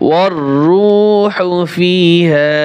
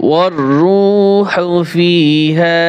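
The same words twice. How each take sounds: No difference in how they are said.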